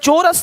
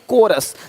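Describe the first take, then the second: First: The word starts with a 'ch' sound. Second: The word starts with a 'k' sound. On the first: The speaker calls it wrong. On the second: The speaker calls it right.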